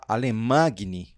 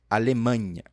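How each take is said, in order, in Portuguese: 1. O g é pronunciado como g forte. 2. O g é pronunciado como som de ny. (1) "Você não pode falar Alemagne. Alemagne não, tá errado" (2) "Ele vai ter o som do nosso N H"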